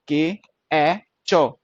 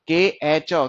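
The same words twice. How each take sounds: First: के ए चो, each sound drawn out slowly and apart. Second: Said in the usual way. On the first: Shown as a demonstration. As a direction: spell के ए चो out sound by sound, slow. (के ए चो को धीरे-धीरे अलग-अलग बोलें) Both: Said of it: "ये sound किसकी प्रोड्यूस कर रहा है?".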